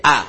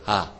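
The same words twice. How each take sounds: First: "ا" as a hard glottal a, no h; sharp hamza. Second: "ها" with an airy h onset in place of hamza; softened hamza. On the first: Teacher shows how it should be said, sharp glottal "ا". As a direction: strike "ا" sharply. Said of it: "همزه ها باید تیزی همزه". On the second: Teacher shows students what to avoid, hamza softened into "ها". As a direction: let "ها" start on an h. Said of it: "اینجور نگه". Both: Shown as a demonstration.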